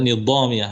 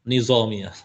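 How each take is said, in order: First: The middle consonant is a dh sound. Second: The middle consonant is a z sound. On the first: This is the original Arabic reading. "sebenarnya Nidhamiyah ya" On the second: This is the regional dialect reading. "orang Iran tuh baca"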